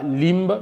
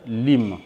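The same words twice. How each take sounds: First: "limbe" with a heard B at the end; wrongly sounded B. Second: "lim" closing on M; silent B. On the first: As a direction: say "limbe" with B released after M. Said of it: "ne prononcez pas limbe". (« limbe » avec le b final prononcé) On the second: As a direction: say "lim", no B at the end. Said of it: "mais dites lim". (« lim » avec le b muet) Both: Shown as a demonstration.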